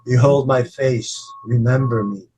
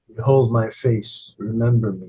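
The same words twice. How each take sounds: First: It sounds like a forceful command. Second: It sounds like a gentle request.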